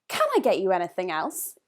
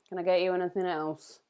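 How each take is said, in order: First: It sounds warm and inviting. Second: It sounds uninterested and dismissive.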